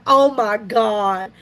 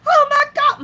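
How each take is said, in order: First: Slow, drawn-out mortified groan of words; understated mock dismay, slowly; imitated embarrassment. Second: High, loud mock squeal; hammed-up fangirl cry; imitated excited fan. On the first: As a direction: play a mildly embarrassed relative, dragging it out. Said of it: "my daughter-in-law kinda got embarrassed". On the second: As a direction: shriek it like a starstruck fan. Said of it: "And she was so excited".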